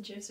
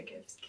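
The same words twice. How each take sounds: First: "gifs" opening with a J sound; first "gifs" said as jifs; soft G. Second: "gifs" opening with a hard G; second "gifs" with g as in gift. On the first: Podcaster asking which way is right, "gifs" with soft G. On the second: Podcaster offering the other option, "gifs" with hard G. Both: Shown as a demonstration. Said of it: "Is it gifs or gifs?".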